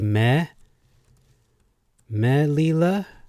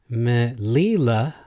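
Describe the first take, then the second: First: The stress is on the first syllable. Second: The stress is on the middle syllable.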